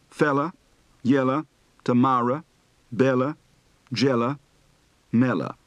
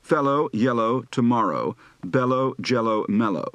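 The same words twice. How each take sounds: First: Southern accent, "fellow" said as "fella"; Southern O to A shift. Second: Said in the usual way. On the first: Shown as a demonstration. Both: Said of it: "Practice words for the O to A shift".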